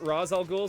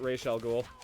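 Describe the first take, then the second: First: The first word ends in an s sound. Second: The first word ends in an sh sound. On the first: "Some of them pronounce it Raz Al Ghul" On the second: "some of them pronounce it Raish Al Ghul"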